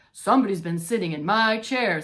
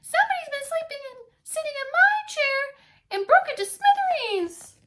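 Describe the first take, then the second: First: Gruff Papa Bear. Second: Very high loud upset cub voice; Baby Bear finding his broken chair; squeaky Baby Bear. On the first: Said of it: "said Papa Bear". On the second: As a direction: wail it like a little cub. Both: Acted.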